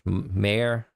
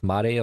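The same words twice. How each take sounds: First: The word is said with an English accent. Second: The word is said with a Japanese accent. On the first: "Am I supposed to pronounce it like in English?" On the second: "Am I supposed to pronounce, pronounce it Japanese?"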